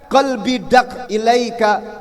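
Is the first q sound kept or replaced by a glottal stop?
kept. The first word starts with a q sound.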